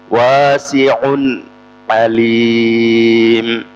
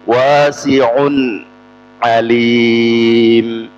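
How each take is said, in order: First: The n sound before alim is clear. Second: The same.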